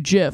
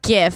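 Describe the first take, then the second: First: The word begins with a J sound. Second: The word begins with a hard G sound. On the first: This is the pronunciation the creator intended. "it's supposed to be GIF. I'm like, no, GIF is a fucking peanut butter" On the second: This is the speaker's own preferred pronunciation. "I fucking pronounce it GIF"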